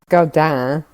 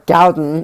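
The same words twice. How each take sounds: First: The name is pronounced with a French pronunciation. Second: The name is pronounced with an American pronunciation. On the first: "if you pronounce it the way that you would if she's French" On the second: "if you pronounce it the way that Americans probably would"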